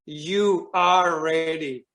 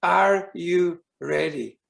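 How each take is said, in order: First: Very slow, assured "You are ready"; spoken as statement. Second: Slow, spaced-out "Are you ready?"; spoken as question. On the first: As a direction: declare "You are ready" word by word, as settled fact. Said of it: "the sound was like". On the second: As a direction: ask "Are you ready?" word by word, as the Spirit. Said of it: "And he goes". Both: Retold or imitated.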